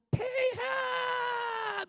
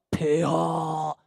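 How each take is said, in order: First: Very high, drawn-out court wail; high-pitched mock courtier, stretched right out; eunuch voice. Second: Booming, low, drawn-out court call; low, slow mock courtier's bellow; deep-voiced eunuch demo. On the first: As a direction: call out in a loud, long falsetto. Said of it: "이래 간신 목소리 같아요". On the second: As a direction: intone it loud and low, held very long. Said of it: "이런 소리 들어봤어요". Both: Shown as a demonstration.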